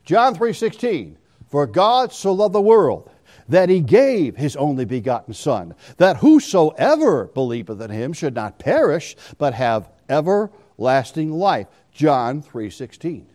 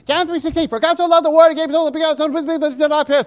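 First: Slow, low, deliberate reading; slow meditative recital. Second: Put-on high, rushed kid recital; childish rushed recital. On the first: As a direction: teach each word, slowly and lower. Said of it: "See the difference?". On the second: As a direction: rattle it off like a bored child, pitched way up. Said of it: "they'd go like this". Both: Shown as a demonstration.

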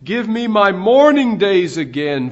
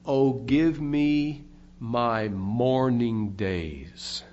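First: Louder, higher preacher's plea; fervent quoted cry, swelling on MOURNING; retold crying out. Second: Low, very slow, solemn plea; understated, weighty lament in a lowered voice; mournful retold cry. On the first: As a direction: quote the sick man's plea with raised voice. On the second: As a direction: quote a sick man's lament, drawn out and lower. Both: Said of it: "He cried out".

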